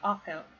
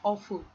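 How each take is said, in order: First: The second syllable has a reduced vowel. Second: The second syllable has a full U vowel. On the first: The speaker calls it right. "So awful. ... remember that there's no U there" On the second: The speaker calls it wrong. "Not awful with U"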